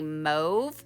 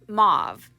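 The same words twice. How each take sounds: First: The word is said with the standard pronunciation. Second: The word is said with the local pronunciation. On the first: This is the technically correct form that few people use. "I think it's technically mauve" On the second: This is how people commonly say it in the region. "That that's how we say it here in Oregon and maybe all over the United States"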